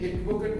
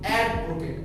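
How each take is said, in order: First: The first vowel is a plain mid 'e'. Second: The first vowel is an open 'a' as in cat. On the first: The speaker calls it wrong. "আমরা কিন্তু এডভোকেট বলি না" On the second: The speaker calls it right. "আমরা কিন্তু বলি অ্যাডভোকেট"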